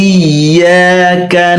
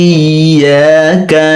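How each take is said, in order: No difference in how they are said.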